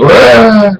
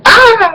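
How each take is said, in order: First: High yell, below a shriek; retold dad's scream. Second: Very high, drawn-out scream; retold mom's scream. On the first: Dad surprised on the toilet by mom, startled yell. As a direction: yelp like a dad caught out. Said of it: "And I hear my dad go". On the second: Mom walks in on dad in the bathroom, high startled scream. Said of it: "I hear my mom scream".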